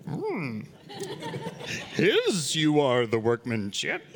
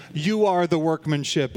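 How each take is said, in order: First: Lightly voiced slow Yoda with a hum; a hint of Yoda, words drawn out; playful slow Yoda impression. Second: Said in the usual way. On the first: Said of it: "if Yoda was speaking it". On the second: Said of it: "is actually a better way of looking at it".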